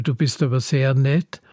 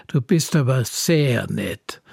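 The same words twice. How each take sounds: First: Said in the usual way. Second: "bist" leaned on, slow and sarcastic; ironic stress on bist. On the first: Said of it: "Zum Beispiel". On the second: Shown as a demonstration. Speaker shows how stress flips a compliment, slow, ironic "bist". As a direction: draw out "bist" so the praise turns mocking. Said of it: "Aber wenn ich sage".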